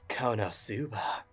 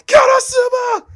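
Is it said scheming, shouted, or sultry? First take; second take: sultry; shouted. First: It is said in a sultry, seductive tone. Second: It is shouted loudly and desperately.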